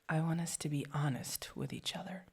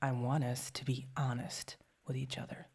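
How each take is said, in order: First: It sounds warmer and friendlier. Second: It sounds firm and gritty, not weak. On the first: "Maybe a bit friendlier" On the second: "I gotta get some like grit in there"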